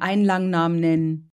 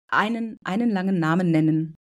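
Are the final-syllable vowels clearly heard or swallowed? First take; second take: swallowed; heard. First: The final-syllable vowels are swallowed. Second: The final-syllable vowels are clearly heard. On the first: The speaker calls it wrong. "unschön zu sagen ... wird sich verschluckt anhören" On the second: The speaker calls it right. "Das ist richtig"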